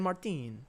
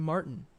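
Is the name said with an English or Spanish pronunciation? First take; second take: Spanish; English. First: The name is said with a Spanish-style pronunciation. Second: The name is said with a plain English pronunciation. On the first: "with a little bit of Spanish flair" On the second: "that's just actually Martin"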